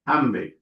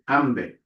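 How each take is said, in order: First: The consonant after m is a b sound. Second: The consonant after m is a b sound.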